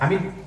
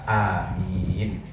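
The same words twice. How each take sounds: First: The first vowel is cut short. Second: The first vowel is held long. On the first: "dengan dibaca qasr. Qasr itu artinya pendek" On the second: "amin bil maddi, dengan membaca panjang"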